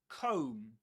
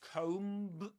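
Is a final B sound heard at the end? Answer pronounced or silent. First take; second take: silent; pronounced. First: The word ends without any B sound. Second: The word ends with an audible B sound. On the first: The speaker calls it right. "The B silent at the end" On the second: The speaker calls it wrong. "you don't say comb"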